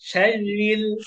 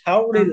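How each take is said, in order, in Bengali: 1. r ধ্বনিটি পাতলা ও হালকাভাবে উচ্চারণ করা হয়। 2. r ধ্বনিটি মোটা ও ভারী করে উচ্চারণ করা হয়। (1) "পাতলা" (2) "সবারই মোটা হয়ে যাচ্ছে, শাওরিল না"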